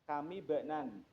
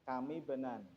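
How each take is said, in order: First: The two words are linked with a joining vowel. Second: The same.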